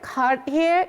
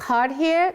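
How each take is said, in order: Both takes have the same delivery.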